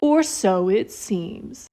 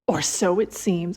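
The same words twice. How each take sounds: First: It is read in a put-on dramatic voice. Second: It is read in a plain, ordinary voice.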